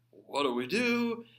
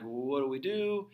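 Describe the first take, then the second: First: Higher, louder, slower frantic "What do we do?"; stretched, raised "What do we do?" like a scared king; panicked plea. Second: Said in the usual way. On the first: Retold or imitated. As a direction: let the king beg in mock panic. King panics, asks Isaiah.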